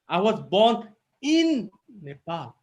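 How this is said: The stress falls on the word in. The birth was inside the country, not outside it. "If I give emphasis in in"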